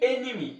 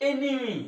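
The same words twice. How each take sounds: The two takes are said the same way.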